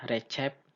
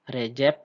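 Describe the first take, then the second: First: The c is said like ch. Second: The c is said like j. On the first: The speaker calls it wrong. "tidak dibaca Recep" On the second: The speaker calls it right. "huruf C di sini itu dibaca J"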